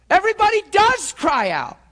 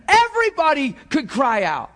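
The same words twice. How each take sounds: First: Does punched high and loud; stress on does. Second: Said in the usual way. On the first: Shown as a demonstration. Preacher insisting everybody does cry out, stress on does. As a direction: hit the word does hard, then fall.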